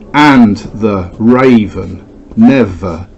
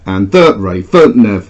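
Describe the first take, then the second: First: Stress falls on the first syllable of each word. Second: Stress falls on the second syllable of each word. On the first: The speaker calls it right. "The stress now actually starts at the beginning" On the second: The speaker calls it wrong. "let's try it as as iambic"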